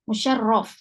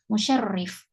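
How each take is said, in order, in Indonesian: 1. Vokal setelah rr ganda itu a. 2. Vokal setelah rr ganda itu i. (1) "Berarti kita bacanya musyarraf" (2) "Ada yang bacanya musyarrif"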